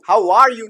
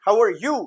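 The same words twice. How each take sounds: First: 'Are' is said fully with a clear vowel. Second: 'Are' is reduced to a short weak 'er'. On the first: The speaker calls it wrong. "How आर you नहीं" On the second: The speaker calls it right. "उसको अर बोलते हैं"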